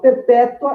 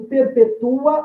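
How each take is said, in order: First: The final u and a form one syllable. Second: The final u and a form two syllables. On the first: It is the adjective meaning perpetual. "esse o A no único impulso" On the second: It is a form of the verb perpetuar. "em dois impulsos de emissão de voz"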